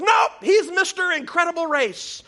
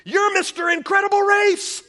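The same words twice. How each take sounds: First: Put-on high, loud little-boy insistence shout; insistent kid. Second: Put-on high, loud little-boy blurt; kid blurting out. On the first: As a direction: correct the grown-ups as a stubborn small boy. Boy insists, correcting his parent. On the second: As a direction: blurt it out like an excited small boy. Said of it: "he blurts out".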